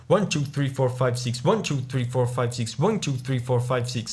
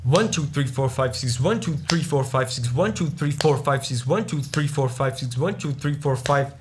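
First: "One" wyraźnie mocniej, reszta liczenia lżej i ciszej; strong first beat. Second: Akcent na przypadkowych liczbach, nie na "One"; random accented beats. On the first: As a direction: akcentuj "One" na początku każdego taktu. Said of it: "So the one is, is strong". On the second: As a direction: uderzaj w nieoczekiwane liczby w takcie. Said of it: "when I accentuate beats that are not the one". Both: Shown as a demonstration.

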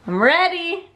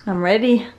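First: I'm ready lifted higher, eager. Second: Said in the usual way. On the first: Real, not acted. Repeating she's ready to decorate, eager and higher. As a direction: sing the second ready up bright.

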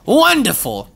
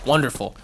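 First: "Wonderful" pitched high, drawn out and falling; sing-song mock delight on "Wonderful"; high sarcastic wonderful. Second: Said in the usual way. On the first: Real, not acted.

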